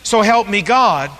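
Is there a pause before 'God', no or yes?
no. It runs straight through without a pause.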